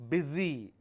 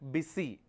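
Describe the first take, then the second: First: The middle consonant is a z sound. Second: The middle consonant is an s sound. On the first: The speaker calls it right. "the pronunciation is Z" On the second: The speaker calls it wrong. "not busy"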